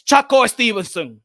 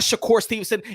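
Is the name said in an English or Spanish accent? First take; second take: Spanish; English. First: The name is said with Spanish pronunciation. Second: The name is said with English pronunciation. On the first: The speaker calls it right. "It's Chaco Stevenson" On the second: The speaker calls it wrong. "it's not Shakur Stevenson"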